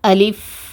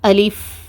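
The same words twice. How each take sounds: The two takes are said the same way.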